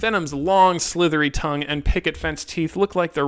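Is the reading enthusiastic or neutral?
neutral. It is read in a plain, neutral tone. It reads as a criticism.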